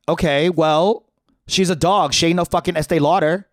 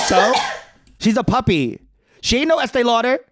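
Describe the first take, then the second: First: Loud sassy retort; sassy comeback. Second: High, sassy snap; sassy retort. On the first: Teen defending his dog, sassy retort. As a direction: fire it back with attitude. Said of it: "I fired back". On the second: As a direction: throw it back with a high diva attitude. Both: Retold or imitated.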